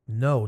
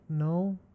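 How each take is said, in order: First: The word is said loudly and forcefully. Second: The word is said softly and weakly. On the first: The speaker calls it right. "Say no with force. Use your diaphragm" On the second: The speaker calls it wrong. "Don't say no"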